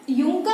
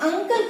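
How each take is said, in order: First: यूंकल with a "yoo" sound at the start; wrong pronunciation. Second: अंकल opening on a short "uh"; teacher's model "UN-kul", अंकल, no y glide; correct pronunciation. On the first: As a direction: misread uncle as यूंकल. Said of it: "यूंकल नहीं करेंगे". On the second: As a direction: say uncle properly as अंकल. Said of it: "बल्कि अंकल कहेंगे". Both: Shown as a demonstration.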